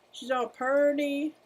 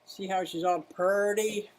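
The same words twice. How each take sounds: First: "purty" crooned higher and slow; higher, slower baby-talk "purty"; cutesy coo. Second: Said in the usual way. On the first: Shown as a demonstration. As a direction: coo "She's all purty" like to a pet.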